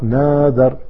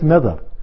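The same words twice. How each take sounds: First: The first vowel is drawn out long. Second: The first vowel is kept short. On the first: The speaker calls it wrong. "It's not nadar" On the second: The speaker calls it right. "It's just nadar. There's no mad there"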